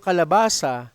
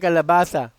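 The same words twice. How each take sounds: First: The s sound is a clear s. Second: The s sound is lisped like th.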